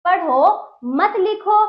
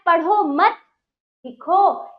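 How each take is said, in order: First: Slow and louder, पढ़ो set apart from मत लिखो; pause after पढ़ो. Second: Louder पढ़ो मत as one unit, a clear break, then लिखो; pause after मत. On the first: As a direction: stretch पढ़ो, break, then say मत लिखो together. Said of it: "पढ़ने को कहा जा रहा है". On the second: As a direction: hold a break between मत and लिखो. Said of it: "यहाँ पर लिखने को कहा जा रहा है". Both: Shown as a demonstration.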